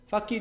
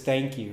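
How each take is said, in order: First: It starts with an f sound and k. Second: It starts with a th sound and nk.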